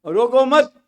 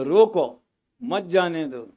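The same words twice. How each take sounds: First: रोको मत run together, rising high on मत; pause after मत. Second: रोको falls low, then a break before मत जाने दो; pause after रोको. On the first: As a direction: join मत to रोको, comma only after it. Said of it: "इधर का कॉमा उधर हो गया". ("रोको मत" एक साथ, ऊँचे सुर में, विराम "मत" के बाद) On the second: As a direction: put an audible comma straight after रोको. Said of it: "रोको के बाद में कॉमा लगाया". ("रोको" के बाद विराम, फिर "मत जाने दो") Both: Shown as a demonstration.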